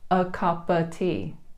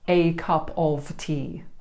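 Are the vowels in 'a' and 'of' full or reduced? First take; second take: reduced; full. First: The words 'a' and 'of' have reduced schwa vowels. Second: The words 'a' and 'of' have full, clear vowels. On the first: The speaker calls it right. "both a and of become the schwa e sound" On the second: The speaker calls it wrong. "It actually would sound really strange to a native speaker"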